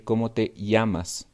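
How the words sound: The double L is a 'y' sound. "in other countries, they say"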